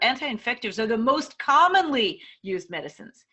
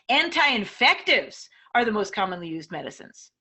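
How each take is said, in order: First: The emphasis falls on most commonly. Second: The emphasis falls on anti-infectives. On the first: How often they are used matters most. "Maybe the most commonly is the most important part" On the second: The type of drug matters most. "If the most important words in this sentence are the anti-infectives, then you can emphasize them"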